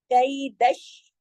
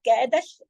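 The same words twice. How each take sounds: First: कई दश slow with the ई drawn out; correct recitation. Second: कैदश run together as one quick word; wrong Urdu way. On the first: Teacher showing the right reading, slow. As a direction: draw out the ई in कई दश slowly. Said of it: "क्योंकि याई लीन है ना". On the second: Teacher showing the wrong Urdu reading, quick. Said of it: "Urdu की तरह नहीं पढ़ेंगे". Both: Shown as a demonstration.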